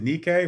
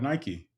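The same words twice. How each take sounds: First: The word is pronounced the Greek way. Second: The word is pronounced the English way. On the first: This is the original Greek word for victory. "you would pronounce it" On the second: This is how people usually say it today. "We call it"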